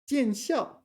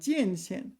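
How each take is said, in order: First: The second syllable is said as xiao. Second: The second syllable is said as xian. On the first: The speaker calls it right. "it's pronounced 校,not 线" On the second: The speaker calls it wrong. "I've pronounced that wrong the whole time"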